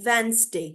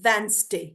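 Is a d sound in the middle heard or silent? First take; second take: silent; silent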